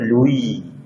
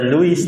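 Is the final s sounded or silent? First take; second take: silent; sounded. First: The final s is silent. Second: The final s is sounded. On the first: The speaker calls it right. "Kalau bahasa Prancis dia suka ngilangi" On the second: The speaker calls it wrong. "dia bukan baca Louis"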